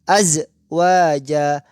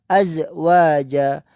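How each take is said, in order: Both takes have the same delivery.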